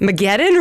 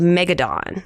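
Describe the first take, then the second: First: The name is said like the end of Armageddon. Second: The name is said as Megadon. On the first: The speaker calls it right. "Because of Armageddon" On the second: The speaker calls it wrong. "I was like Megadon"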